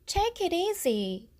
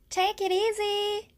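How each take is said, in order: First: It sounds gentle and caring, urging rest. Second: It sounds light and friendly, like a parting. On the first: Don't overwork yourself, take a break. "쉬엄쉬엄 해" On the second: Goodbye, take care. "안녕, 잘 지내?"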